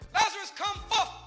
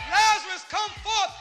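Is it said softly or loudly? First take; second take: softly; loudly. First: It is said fairly softly. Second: It is said very loudly.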